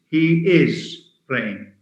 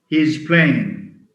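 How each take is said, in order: First: The word is is said in full. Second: Is is reduced to a z sound. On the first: "They hardly say he is playing" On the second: "he's playing, ... is a weak form of is"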